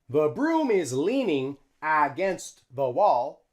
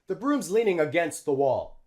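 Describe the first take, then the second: First: Broom and is are said as two full words. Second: Broom's is contracted with the words linked together. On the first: The speaker calls it wrong. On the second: The speaker calls it right. "We use the contraction"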